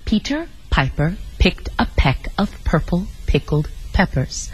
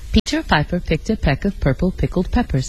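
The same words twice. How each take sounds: First: It is said very slowly. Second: It is said at ordinary speed.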